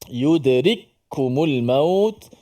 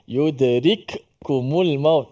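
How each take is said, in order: First: The first k merges into the second k. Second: The first k is stopped and pronounced separately. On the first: The speaker calls it right. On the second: The speaker calls it wrong.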